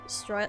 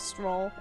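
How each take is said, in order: First: The vowel sounds like 'oil', with a glide. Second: The vowel sounds like 'roll', with no glide. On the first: The speaker calls it wrong. "I've been thinking it was S- S- Stroil?" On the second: The speaker calls it right. "they say his name specifically as Stroll in the in the voice acting"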